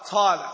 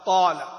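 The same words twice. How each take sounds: First: The first consonant has a breathy, whispered release. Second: The first consonant has no breathy release. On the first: The speaker calls it wrong. "هذه إيش مهموسة ولا مجهورة؟ مهموسة، خطأ" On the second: The speaker calls it right. "وليست طا"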